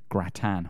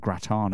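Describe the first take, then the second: First: It is said with a British pronunciation. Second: It is said with an American pronunciation.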